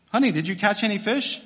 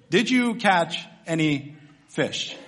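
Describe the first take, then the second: First: Said in the usual way. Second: Each word spaced out, dropping on "fish"; slow, deliberate question. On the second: Acted. Preacher repeats the humiliating question to empty-handed fishermen, slowly and deliberately. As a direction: draw out "Did you catch any fish" word by word.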